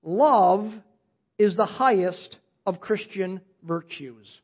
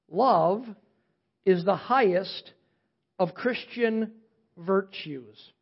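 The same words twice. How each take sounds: First: Slow, deliberate statement; dictating slowly. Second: Pauses between each phrase, slow; word by word dictation. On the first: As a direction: lay it down slowly for note-taking. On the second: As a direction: space the words out so they can write. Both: Shown as a demonstration. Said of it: "write it down".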